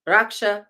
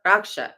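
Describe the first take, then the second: Both takes have the same delivery.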